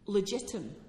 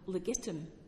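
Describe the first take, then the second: First: The G is soft, like a J. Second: The G is hard, as in go.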